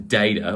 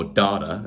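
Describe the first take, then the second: First: Said in the usual way. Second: DATA said the American way, as "dah-ta"; American pronunciation. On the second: Shown as a demonstration. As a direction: say "data" with an open "ah" in the first syllable, American style. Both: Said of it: "as the Americans would say".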